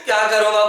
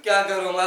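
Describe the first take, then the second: First: "क्या करूँ माँ" cried out much louder, raw and anguished; loud, desperate, pushed-up plea to a dead mother; extreme emotional plea. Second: Restrained grieving ask; subdued plea. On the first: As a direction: push the grief to the limit and wail it at his mother. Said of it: "emotion बढ़ा दो, full extreme". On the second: Plea before director asks more. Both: Acted.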